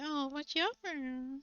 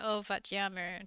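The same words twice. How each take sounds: First: "wat jammer" drawn out slowly, pitched high; mocking tone. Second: Said in the usual way. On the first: Shown as a demonstration. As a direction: poke fun with a slow, swooping "jammer". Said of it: "tone, I say". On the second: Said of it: "instead of saying it in, in kinda like".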